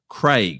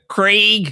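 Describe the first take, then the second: First: The name is said in a non-American accent. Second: The name is said in an exaggerated American accent.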